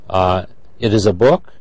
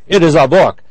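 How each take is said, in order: First: The voice sounds calm and neutral. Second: The voice sounds sharp and angry. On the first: The speaker is stating a fact. "I can say it is a book" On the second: The speaker is annoyed. "Or if I'm angry"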